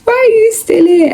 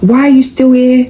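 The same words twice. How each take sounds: First: Much higher squealing disbelief; squeaky disbelief. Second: Raised-pitch incredulous why are you still here; exasperated question. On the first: Mocking an ex who came back, high squeal. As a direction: squeal it up high in mock horror. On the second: To an ex who texted again, raised incredulous question. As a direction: push the question up in disbelief. Rejecting ex who contacted her. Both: Retold or imitated.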